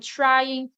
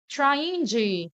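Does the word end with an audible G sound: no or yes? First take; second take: no; yes. First: The word ends without any G sound. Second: The word ends with a pronounced G sound. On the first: The speaker calls it right. "Sempre falo trying" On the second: The speaker calls it wrong. "mas eu não falo doing G, trying G. Eu não falo, nunca falo assim"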